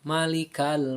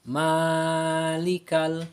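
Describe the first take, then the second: First: The first vowel is kept short. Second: The first vowel is held long. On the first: It refers to a master. The speaker calls it wrong. "tidak boleh dibaca pendek" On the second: It refers to the one who owns. The speaker calls it right. "kita harus membacanya panjang"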